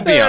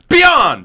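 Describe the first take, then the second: First: It is said casually with low energy. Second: It is said loudly with high energy.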